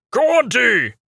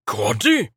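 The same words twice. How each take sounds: First: High, loud demanding call. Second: Puzzled question. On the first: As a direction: shout the name at the wagon. Acolyte calls at the wagon. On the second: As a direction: ask the name, unsure. Acolyte asks uncertainly. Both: A narrator's reading.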